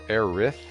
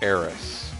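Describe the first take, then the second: First: The name ends with a th sound. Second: The name ends with a plain s sound. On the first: The speaker calls it wrong. "it sounds like a lisp to me" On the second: The speaker calls it right. "So to me, uh, she is Eris"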